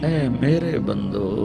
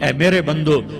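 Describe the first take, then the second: First: It is said in a soft, loving tone. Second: It is said in a plain, unaffectionate tone. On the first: The speaker calls it right. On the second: The speaker calls it wrong.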